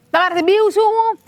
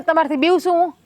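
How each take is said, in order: First: Higher, mock-incredulous question; mock-incredulous repeat. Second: Said in the usual way. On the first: Wife teasing her husband, repeating her question in mock disbelief. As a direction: throw the question back at him teasingly.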